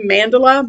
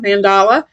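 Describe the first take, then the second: First: "Mandala" as MAN-duh-luh; first-syllable stress. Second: "mandala" as man-DAH-luh; open, stressed middle "ah" in "mandala"; alternative pronunciation. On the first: Vlogger naming the brand, "Mandala" as MAN-duh-luh. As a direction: stress the start of "Mandala", weak middle vowel. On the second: Vlogger adding the other version, "mandala" as man-DAH-luh. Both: Shown as a demonstration. Gives both versions of brand name.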